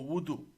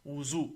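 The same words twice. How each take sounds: First: "wudu", d in the middle; variant pronunciation wudu. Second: "wuzu", z in the middle; variant pronunciation wuzu. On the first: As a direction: say WUDU with a d sound. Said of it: "It's also pronounced wuzu or". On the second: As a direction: say WUZU with a z sound. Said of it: "It's also pronounced". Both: Shown as a demonstration.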